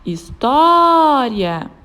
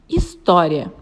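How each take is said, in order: First: História with TÓ held long and loud; calling the word. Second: Said in the usual way. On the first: Shown as a demonstration. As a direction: call out História, stretching the syllable tó. (chamando história, com o tó forte e alongado) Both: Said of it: "Vamos chamar a palavra".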